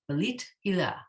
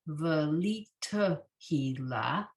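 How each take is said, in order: First: A middle vowel is dropped, running the words together. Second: Every syllable is said fully and carefully. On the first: "when you say it more directly, it comes out" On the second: "this more accurate might be velita hila"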